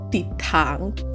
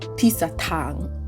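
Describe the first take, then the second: First: The word has no extra middle syllable. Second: An extra syllable is inserted in the middle. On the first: The speaker calls it right. "the right way to say it was titang" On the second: The speaker calls it wrong. "literally saying this months ago to my tutor"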